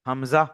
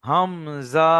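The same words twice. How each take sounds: First: The word is said short and quick. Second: The word is drawn out long. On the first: The speaker calls it right. "তাড়াতাড়ি বলতে হবে" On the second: The speaker calls it wrong. "না, নয়"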